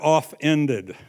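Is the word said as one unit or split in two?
split. The word is split, with 'off' set apart.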